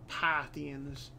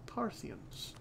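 First: Said in the usual way. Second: Parthians breathed in a whisper. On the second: Pretend. Repeats the word, then whispers it.

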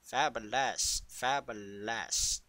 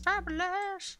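First: Slow, savoured Fabulous; lingering camp delivery; drawn-out fabulous. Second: Fabulous. sung up high and drawn out; squealed fabulous. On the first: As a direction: stretch out Fabulous. lovingly. Savouring the catchword. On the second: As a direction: leap way up on Fabulous. Repeated catchword, pitch leap. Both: Pretend.

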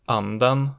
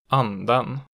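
First: Anden falling on the first syllable, rising on the second; type two B accent one. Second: Anden peaking at once, dropping sharply, rising late; type two B accent two. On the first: Teacher showing regional tones, Anden with falling-rising accent one. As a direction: dip Anden, then peak on the ending. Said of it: "falls in the stressed syllable and then rises". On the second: Teacher showing regional tones, anden with double-peak accent two. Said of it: "it immediately peaks and then drops sharply". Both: Shown as a demonstration.

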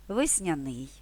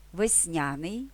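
First: ВесняНИЙ, stress at the end; stress on last syllable. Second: ВесНЯний, stress on NIA, rising end; stress on second syllable. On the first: (наголос на останній склад: весняНИЙ) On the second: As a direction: hit the middle syllable of весНЯний. (наголос на другий склад: весНЯний) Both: Shown as a demonstration. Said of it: "подвійним наголосом".

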